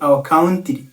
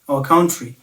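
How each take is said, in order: First: The t in country sounds like a plain t. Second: The t in country sounds like ch. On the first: The speaker calls it wrong. "ntabwo ari our country" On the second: The speaker calls it right. "it is our country"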